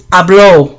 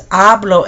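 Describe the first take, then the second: First: Habló with stress on the final LÓ; habló, punch the ending; stress on last syllable. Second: Hablo with stress on HA; hablo, weight on the start; stress on first syllable. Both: Shown as a demonstration. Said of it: "There's a difference in accents".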